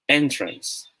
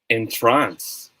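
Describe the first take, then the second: First: The stress is on the first syllable. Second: The stress is on the second syllable. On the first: A place where you enter. "Dun sa smiley face side, it's pronounced as" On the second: To put someone into a trance. "Dun sa wink side, it's pronounced as"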